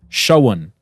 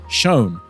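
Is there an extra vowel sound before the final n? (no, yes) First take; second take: yes; no. First: An extra schwa vowel comes before the final n. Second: It is said as one syllable without extra vowel.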